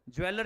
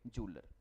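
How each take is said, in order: First: The word begins with a 'jweh' sound. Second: The word begins with a 'joo' sound. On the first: The speaker calls it wrong. "ज्वेलर नहीं बोलेंगे" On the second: The speaker calls it right.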